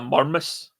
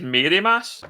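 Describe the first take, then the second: First: The words are squashed into one short word. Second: Both words are said fully and clearly. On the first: This is how local people say it. The speaker calls it wrong. "if you're from here, you call it the Murmus" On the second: This is how it reads from the spelling. The speaker calls it right. "If you read it, it says Mary Mass"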